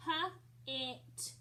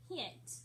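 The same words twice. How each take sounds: First: "H-it" split into a puffed h, then it; sounded out. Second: Said in the usual way. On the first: Shown as a demonstration. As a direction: break "H-it" after the first sound, with a gap. Teacher breaks word into sounds.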